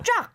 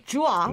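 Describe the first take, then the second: First: The glide is quick within one syllable. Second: The glide is drawn out into two syllables. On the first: The speaker calls it right. "but 짝" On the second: The speaker calls it wrong. "We don't say 쭈아"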